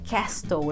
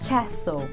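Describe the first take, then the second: First: The t in the middle is pronounced. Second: The t in the middle is silent. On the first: The speaker calls it wrong. "eu não falo castle" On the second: The speaker calls it right. "eu falo castle"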